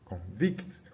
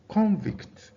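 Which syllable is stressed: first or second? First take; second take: second; first. First: The stress is on the second syllable. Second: The stress is on the first syllable. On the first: It means to find someone guilty. "Look at the verb" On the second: It names a person found guilty. "now that's showing you that the stress is on the first syllable"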